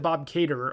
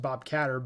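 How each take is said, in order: First: The surname has a long vowel, like 'cater'. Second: The surname has a short vowel, like 'cat'. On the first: This is how the other person said it. "You said you said Bob Cater" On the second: This is how the speaker would say it. "I would have pronounced it Bob Catter"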